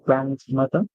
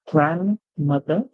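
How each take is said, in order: First: The d sound in the middle is clearly pronounced. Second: The d sound in the middle is left out. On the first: This is the British English pronunciation. "where I pronounce my do. So I say grandmother" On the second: This is the American English pronunciation. "The American English would say grandmother because they will exempt the the"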